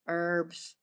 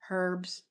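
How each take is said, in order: First: The word begins without any H sound. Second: The word begins with an audible H sound.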